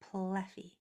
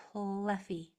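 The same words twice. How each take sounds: The two takes are said the same way.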